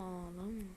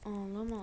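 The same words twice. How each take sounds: First: Much softer, tender hush of ağlama; softer soothing. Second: Soothing. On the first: Gamer hushing a crying character, very soft ağlama. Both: Real, not acted. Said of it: "Bu niye ağlıyor?".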